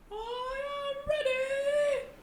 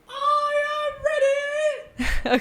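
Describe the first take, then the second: First: It is said at a softer volume. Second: It is said at a louder volume.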